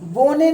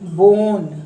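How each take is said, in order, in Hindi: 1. शब्द के अंत में एक अतिरिक्त स्वर ध्वनि आती है। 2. शब्द n ध्वनि पर खत्म होता है। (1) "बोने नहीं, इसका उच्चारण ई का नहीं होगा"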